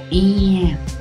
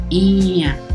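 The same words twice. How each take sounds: First: The vowel starts directly with spread lips. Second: The same.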